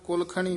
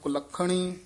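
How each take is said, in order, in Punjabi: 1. ਵਿਚਲਾ ਵਿਅੰਜਨ ਢਿੱਲਾ ਬੋਲਿਆ ਜਾਂਦਾ ਹੈ, ਰੋਕਿਆ ਨਹੀਂ ਜਾਂਦਾ। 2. ਵਿਚਲਾ ਵਿਅੰਜਨ ਕਸ ਕੇ ਰੋਕਿਆ ਜਾਂਦਾ ਹੈ ਅਤੇ ਦੋਹਰਾ ਕੀਤਾ ਜਾਂਦਾ ਹੈ। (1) "ਕੁਲੱਖਣੀ ਨਹੀਂ ਕਹਿਣਾ" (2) "ਕਸ ਕੇ ਬੋਲਣਾ"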